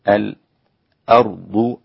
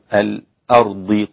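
First: A tiny silent break comes before the glottal stop. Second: The word flows with no break before the glottal stop. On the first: "له السكت وصلا" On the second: "وعدمه"

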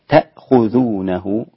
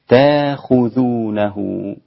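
First: A glottal stop is heard before the kh sound. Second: A long a vowel is heard before the kh. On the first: "الهمزة إذا قرأتها برواية حفص هكذا" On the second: "لو أبدلت هذه الهمزة ألفا كيف يصير النطق؟"

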